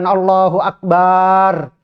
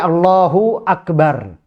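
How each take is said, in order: First: A vowel is drawn out unusually long. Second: The vowels are kept at normal length. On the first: The speaker calls it wrong. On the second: The speaker calls it right. "Tapi Allahu Akbar"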